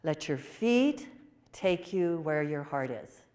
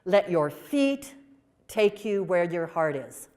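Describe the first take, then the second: First: Tender slow repeat. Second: Gentle motherly advice. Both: Retold or imitated. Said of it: "She said".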